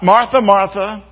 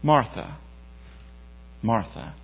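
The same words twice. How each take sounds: First: It is said in a harsh, scolding tone. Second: It is said in a gentle, tender tone.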